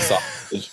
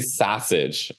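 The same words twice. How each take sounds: First: Said in the usual way. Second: "sausage" with the uncle's Chicago vowel, SAH-sidge; Chicago pronunciation. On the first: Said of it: "instead of sausage". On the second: Shown as a demonstration. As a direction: say "sausage" as a South Side Chicagoan would. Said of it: "he would say sausage instead of sausage".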